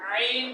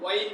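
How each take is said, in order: First: The word starts with a pressed throat sound. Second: The word starts with a w glide. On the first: The speaker calls it right. "চাপ দিয়ে বলেন আইন" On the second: The speaker calls it wrong. "ওয়াইন না"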